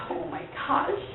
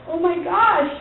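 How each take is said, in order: First: Whispered, higher oh my gosh; shocked whisper. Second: Said in the usual way. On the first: Retold or imitated. Wife overwhelmed by the news, whispering. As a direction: breathe it out in disbelief. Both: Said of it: "I'm like".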